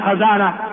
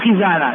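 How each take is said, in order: First: The first vowel is an 'a' sound. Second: The first vowel is an 'i' sound. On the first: The speaker calls it wrong. "لا تقول خزانة" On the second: The speaker calls it right. "وإنما الصواب خزانة"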